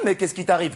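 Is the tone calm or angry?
calm. It is said in a calmer tone.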